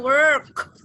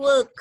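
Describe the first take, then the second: First: American "work" with the R pronounced; American WORK, clear R. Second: A silent R in "work", British style; British WORK without R. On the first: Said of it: "R-nya jelas". ("work" logat Amerika, R-nya jelas) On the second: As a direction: say "work" with the R dropped. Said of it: "Suara R tuh dihilangkan". ("work" logat British, tanpa bunyi R) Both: Shown as a demonstration.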